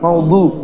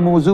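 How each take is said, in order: First: The middle consonant is a d sound. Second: The middle consonant is a z sound. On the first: This is the pronunciation outside Urdu and Persian. "এমনি না হলে কি মৌদু" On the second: This is the Urdu and Persian pronunciation. "উর্দুতে ফার্সিতে দোয়ারটা জোয়া উচ্চারণ হয়"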